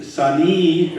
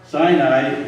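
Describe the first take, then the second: First: Sani said sah-NEE; alternative pronunciation. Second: Sinai said SIGH-nigh; the familiar English SIGH-nigh for Sinai; English pronunciation. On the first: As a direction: say Sani with a long ee at the end. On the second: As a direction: say Sinai with two long i sounds. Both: Shown as a demonstration.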